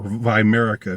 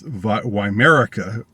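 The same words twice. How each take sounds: First: The word is pronounced with German sounds. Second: The word is pronounced with English sounds.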